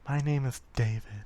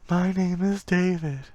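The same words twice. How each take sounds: First: It is said in a normal, plain voice. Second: It is said in an eerie, ghostly voice. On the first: The speaker calls it wrong. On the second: The speaker calls it right.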